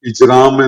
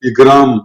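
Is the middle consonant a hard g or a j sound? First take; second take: j; hard g. First: The middle consonant is a j sound. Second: The middle consonant is a hard g sound.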